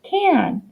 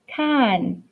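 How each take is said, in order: First: The vowel is a nasal glued 'an' sound. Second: The vowel is a plain short a sound. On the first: The speaker calls it right. "It has our glute sound and" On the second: The speaker calls it wrong. "that doesn't sound like the word can"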